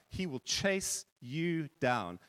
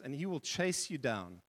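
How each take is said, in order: First: "chase" leaned on, whole line slowed right down; slow emphatic. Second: Said in the usual way. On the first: Shown as a demonstration. Preacher repeats God's pursuit for the congregation, slow and emphatic. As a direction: stretch out "He will chase you down", weighting "chase".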